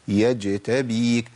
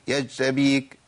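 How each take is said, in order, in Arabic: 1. صوت الجيم ينتهي بارتداد خفيف. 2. صوت الجيم يُقطع بسرعة من غير ارتداد. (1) "ذيول صوتية لطيفة" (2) "عدم تمكين لمخرجها في حال السكون"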